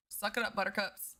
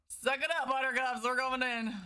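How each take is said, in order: First: Said in the usual way. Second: Playful sing-song tease. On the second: Acted. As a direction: rub it in playfully. Teasing chat after laughing.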